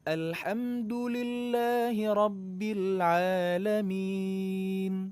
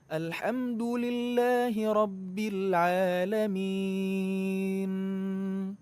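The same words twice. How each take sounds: First: The final n is single, not doubled. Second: The final n is doubled and held. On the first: The speaker calls it right. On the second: The speaker calls it wrong. "malah jadi ketambahan tasydidnya"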